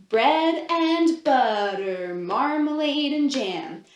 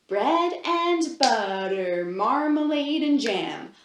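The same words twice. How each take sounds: No difference in how they are said.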